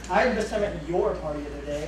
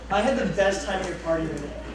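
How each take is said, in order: First: It is said sarcastically, with stress on "your". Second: It is said in a sincere, pleased tone. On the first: The party was hated. "I hated your party by saying your" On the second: The party was truly enjoyed. "that sounds like I had the best time at your party of the day"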